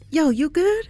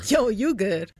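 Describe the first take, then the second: First: It sounds supportive and caring. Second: It sounds sarcastic and mocking.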